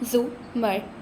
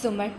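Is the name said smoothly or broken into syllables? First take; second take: broken; smoothly. First: The name is split into separate syllables. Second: The name is said smoothly as one word.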